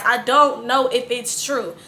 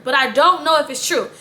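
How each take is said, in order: First: "I don't know if it's true" slowed, each word leaned on; deliberate slow emphasis on "don't know"; emphasized. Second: Said in the usual way. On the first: Shown as a demonstration. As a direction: spell it out slowly, stressing "don't". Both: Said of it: "I emphasize".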